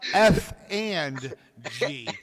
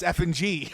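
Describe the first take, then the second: First: The phrase is said at a normal pace. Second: The phrase is said quickly, running together.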